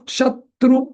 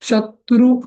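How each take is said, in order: The two takes are said the same way.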